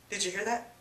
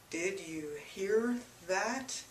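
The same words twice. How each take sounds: First: The phrase is said fast. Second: The phrase is said slowly. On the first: The speaker calls it right. "You say it fast" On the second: The speaker calls it wrong. "you don't say slowly"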